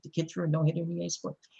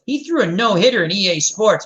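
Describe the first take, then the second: First: Quiet, fast, deflated mutter; deadpan mutter. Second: Put-on eager kid boasting, a bit louder. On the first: Retold or imitated. Coach repeating the kid's video-game claim, muttered deadpan. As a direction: mutter it under your breath, resigned. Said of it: "I'm like". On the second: Kid's friend vouching for him to the coach, eager boast. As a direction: boast it like a proud teammate. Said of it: "his friend goes".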